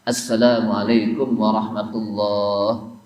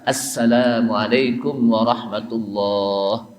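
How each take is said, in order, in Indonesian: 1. Vokal dalam 'lah' dibaca panjang. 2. Vokal dalam 'lah' dibaca panjang.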